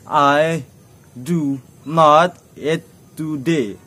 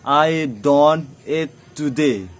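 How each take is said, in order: First: Do not is said as two full words. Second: Do not is contracted into one syllable, don't.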